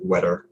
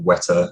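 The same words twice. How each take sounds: First: It is said in an American English accent. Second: It is said in a British English accent. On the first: "American English might say like wetter" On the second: "where a British English person would say wetter"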